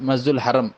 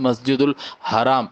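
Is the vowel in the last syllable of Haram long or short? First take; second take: short; long. First: The last vowel of Haram is short. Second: The last vowel of Haram is long. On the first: The speaker calls it wrong. "மருவி" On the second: The speaker calls it right. "சரியாக இருக்கிறது"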